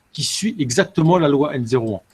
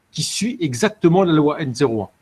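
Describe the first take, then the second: Both takes have the same delivery.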